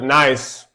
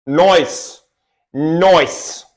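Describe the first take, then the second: First: Said in the usual way. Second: "Noise" with the i of nice rounded into oi, noice; mock British "Noise" with an oi vowel; meme noice. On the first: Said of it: "that meme with the British guy". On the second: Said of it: "that meme with the British guy that does".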